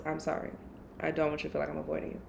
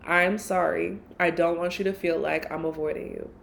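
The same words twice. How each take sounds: First: Hushed and hurried, much softer; soft rushed apology to an avoided friend; soft quick apology. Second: Said in the usual way. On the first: Retold or imitated. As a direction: murmur the apology gently and fast. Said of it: "That's the first thing I said was". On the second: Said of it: "the first thing I said was".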